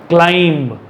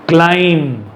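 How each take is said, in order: The two takes are said the same way.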